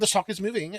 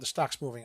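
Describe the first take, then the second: First: It is said in a put-on British accent. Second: It is said in the speaker's own American accent.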